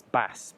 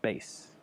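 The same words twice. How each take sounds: First: "bass" with a short a, like the fish; typical mispronunciation. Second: "bass" said just like "base"; correct long-A pronunciation. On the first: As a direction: demonstrate "bass" wrongly with the vowel of "mass". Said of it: "typically pronounced as bass". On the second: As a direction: give "bass" the long ay vowel. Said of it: "but it's in fact bass". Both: Shown as a demonstration.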